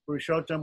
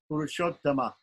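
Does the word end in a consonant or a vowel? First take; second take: consonant; vowel. First: The word ends on the consonant m. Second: The word ends with a short a vowel. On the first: The speaker calls it wrong. "without the A at the end" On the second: The speaker calls it right. "It's a short A at the end, but it still has to be there"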